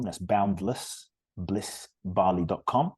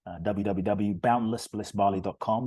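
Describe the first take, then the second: First: "boundless bliss bali dot com" said slowly, each word set apart; slow it down so listeners can write it down; slow, spelled-out repeat. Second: Said in the usual way. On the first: Shown as a demonstration.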